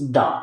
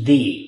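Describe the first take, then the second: First: The word ends in a short 'uh' vowel. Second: The word ends in a long 'ee' vowel. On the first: The next word begins with a consonant sound. "If the next word begins in consonant sound, it's pronounced da" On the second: The next word begins with a vowel sound. "But if the next word begins in vowel sound, it's pronounced the"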